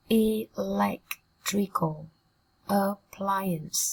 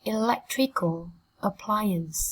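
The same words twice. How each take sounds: First: Very slow Electrical, pause, then appliance; slow broken-down reading. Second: Said in the usual way. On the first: Shown as a demonstration. Teacher modelling a phrase for students, slowly in pieces. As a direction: sound out Electrical appliance in separated syllables. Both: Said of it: "Cô giáo đọc chậm nhá".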